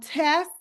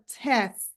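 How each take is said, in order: First: The final consonant cluster is reduced. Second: The final consonant cluster is fully pronounced.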